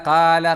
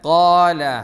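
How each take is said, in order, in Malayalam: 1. ആദ്യ ശബ്ദം മെലിഞ്ഞത്, തുറന്ന സ്വരത്തോടെ. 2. ആദ്യ ശബ്ദം കനത്തത്, വായ നിറച്ച്. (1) "പറഞ്ഞാൽ പോരാ" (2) "കോല കോല പറയണം"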